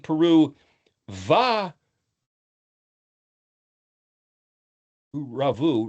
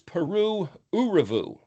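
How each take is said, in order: First: The joining word starts with a v sound. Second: The joining word is a plain u vowel. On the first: "It could be Peru va uravu" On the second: "it sounds like a U"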